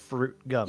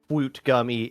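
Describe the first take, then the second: First: It is said in an ordinary adult pronunciation. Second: It is said in a toddler-like pronunciation. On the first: This is the usual way to say it. "instead of" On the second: This is how a small child would say it. "would probably say"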